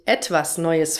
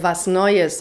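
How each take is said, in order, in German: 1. Das erste Wort wird voll gesprochen. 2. Das erste Wort wird auf eine Silbe verkürzt. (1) "und nicht" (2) "und nicht etwas Neues"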